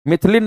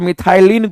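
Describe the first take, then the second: First: The second syllable has a short 'i' sound. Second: The second syllable has a long 'ai' sound. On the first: The speaker calls it wrong. "मिथिलिन नहीं" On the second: The speaker calls it right. "इसको मिथाइलिन group कहते हैं"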